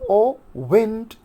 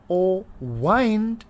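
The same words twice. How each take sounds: First: The vowel in 'wind' is a short 'ih'. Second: The vowel in 'wind' is a long 'eye'. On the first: "you will say that it is pronounced as wind" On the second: "in order to rhyme this wind with behind, so we will pronounce this wind as wind"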